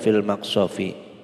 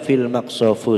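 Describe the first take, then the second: First: The final word ends with an i vowel. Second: The final word ends with an u vowel. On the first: The speaker calls it right. "harus dibaca jar" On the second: The speaker calls it wrong.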